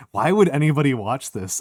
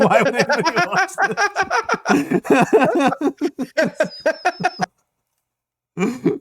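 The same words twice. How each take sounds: First: Said in the usual way. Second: Much higher, louder, mock-shocked; high exaggerated disbelief. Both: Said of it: "it cuts back to them saying".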